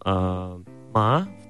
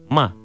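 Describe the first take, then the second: First: The pitch rises from middle to high. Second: The pitch falls sharply from high. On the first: It means hemp. "«ма» вторым тоном, это «конопля»" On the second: It means to scold or swear. "«ма» четвертым тоном, это «ругаться матом»"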